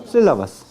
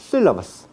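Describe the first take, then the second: The two takes are said the same way.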